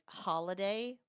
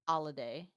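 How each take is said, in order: First: The word begins with a clear 'h' sound. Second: The word begins without any 'h' sound.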